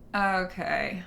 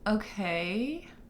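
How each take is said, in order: First: It is said in a dismissive tone. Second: It is said in a questioning tone. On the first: The speaker acknowledges it but will not follow it. "Like, all right, I got it. Whatever you're trying to kick to me is not not something I'm going to follow" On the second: The speaker is asking a question. "question mark"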